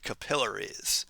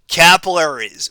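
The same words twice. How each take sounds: First: It is said the British way. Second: It is said the American way.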